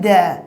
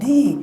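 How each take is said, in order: First: The vowel is a short, weak 'uh' sound. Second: The vowel is a long 'ee' sound. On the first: A consonant sound comes next. "কনসোন্যান্টের আগে যখন T H E বলছে তখন উচ্চারণ কি দ্যা" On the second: A vowel sound comes next. "এর উচ্চারণ করবো দি"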